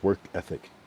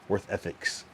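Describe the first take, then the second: First: The phrase ends without any s sound. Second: The phrase ends with an added s sound. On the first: The speaker calls it right. "There's no S. It's just work ethic" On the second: The speaker calls it wrong. "Some people don't know how to pronounce it correctly"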